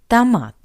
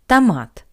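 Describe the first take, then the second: The two takes are said the same way.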